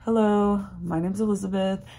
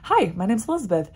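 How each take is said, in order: First: It is said flatly, with low energy. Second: It is said confidently, with lively energy.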